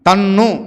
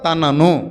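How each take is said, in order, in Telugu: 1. ఈ పదం రెండు చిన్న అక్షరాలుగా కుదించబడింది. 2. ఈ పదం మూడు అక్షరాలతో పూర్తిగా పలకబడింది.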